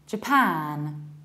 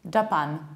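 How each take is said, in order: First: The stress is on the second syllable. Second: The stress is on the first syllable. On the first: The speaker calls it right. "you need to stress the second syllable, not the first one" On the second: The speaker calls it wrong. "the one that is usually pronounced like Japan"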